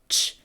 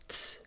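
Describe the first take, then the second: First: The sound is a 'ch' sound. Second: The sound is a 'ts' sound. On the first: This is the anglicized rendering of the syllable. The speaker calls it wrong. "The syllable universally written as ch" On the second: This is the original Cherokee rendering of the syllable. The speaker calls it right. "Chiclee has to be ts"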